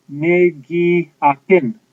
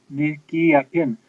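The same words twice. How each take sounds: First: Ne gi apin, drawn out and slow; slow model phrase. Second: Said in the usual way. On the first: Shown as a demonstration. Teacher models the Cree phrase to students, slowly. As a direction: lay out each syllable slowly. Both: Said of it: "you would say".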